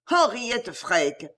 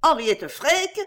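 First: Henriette drawn out very slowly, falling; vehement exclamation. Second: Freke? flung up high and rising, louder; vehement disbelief. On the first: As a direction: pronounce the name like a verdict. (Henriette Freke! très lent, descendant, accablé) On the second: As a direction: question the name in outraged disbelief. (Henriette Freke? lancé haut, montant, indigné) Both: A narrator's reading. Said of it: "s'écria avec véhémence".

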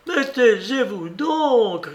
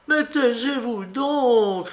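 First: Higher, slow, panicked cry. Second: Higher, slow, rising fury; she's losing her temper, slowly; growing anger. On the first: Maid crying out as her mistress accuses her, panicked. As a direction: beg in terror, slowly. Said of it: "cria Monique affolée". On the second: Maid snapping at her mistress, with growing anger. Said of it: "avec l'accent d'une colère grandissante". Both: A narrator's reading.

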